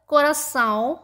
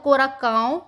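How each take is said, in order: First: The middle consonant is an s sound. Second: The middle consonant is a k sound. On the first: "इसीलिए हमें इसके नीचे ऐसे एक्सेंट लगाना जरूरी होता है" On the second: "अगर मैं यहां से एक्सेंट हटा दूं तो क्या होगा, ये हो जाएगा कोराकाओ"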